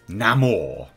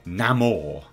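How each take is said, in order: First: The name has a Latin pronunciation. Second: The name has a Latin pronunciation.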